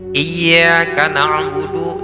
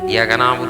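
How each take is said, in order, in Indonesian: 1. Bunyi y itu dibaca panjang dan ganda. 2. Bunyi y itu pendek dan tunggal.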